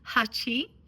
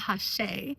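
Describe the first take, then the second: First: It has a ch sound and ends in ee. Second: It has a ch sound and ends in ay. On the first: This is close to the Japanese number eight. "the correct term is Hachi" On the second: This is how it may be said in the UK. "If you're in the U K, you might call it Hache"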